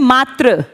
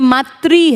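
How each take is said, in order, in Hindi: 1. शब्द सादे 'r' पर खत्म होता है। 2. शब्द 'ri' पर खत्म होता है। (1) "इसको लोग कहेंगे मात्र" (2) "री की साउंड क्रिएट करनी है"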